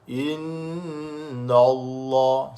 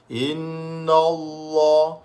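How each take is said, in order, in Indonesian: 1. Bunyi n itu tebal dan berat. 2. Bunyi n itu tebal dan berat.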